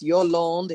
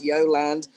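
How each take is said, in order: First: The name is pronounced the French way. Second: The name is pronounced the English way. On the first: "If you want to say it in French" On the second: "If you want to say it in English"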